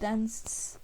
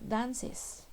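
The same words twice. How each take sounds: First: The ending adds no extra syllable. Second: The ending adds an extra syllable. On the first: The speaker calls it wrong. "Yo no puedo decir dances. No habría diferencia en la pronunciación" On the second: The speaker calls it right. "Tengo que pronunciar dances"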